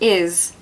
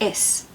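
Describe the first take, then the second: First: The word ends with a buzzing Z sound. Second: The word ends with a hissing S sound. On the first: The speaker calls it right. "we say is instead of is" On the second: The speaker calls it wrong. "is not pronounced is"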